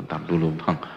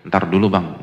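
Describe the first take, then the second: First: Lazy brush-off. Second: Louder, dismissive put-off; brushing off. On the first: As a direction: let it trail off lazily. Wife brushing off husband. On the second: Wife brushing off her husband, louder dismissive tone. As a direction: push the husband away, firmly. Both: Retold or imitated.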